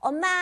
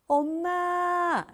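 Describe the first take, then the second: First: It is strained, forced from the throat. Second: It is soft, warm and full.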